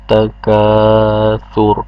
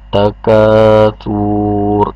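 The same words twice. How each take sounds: First: The final vowel is kept short. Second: The final vowel is drawn out long. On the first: The speaker calls it right. "dan tidak panjang" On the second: The speaker calls it wrong. "bukan takatsur"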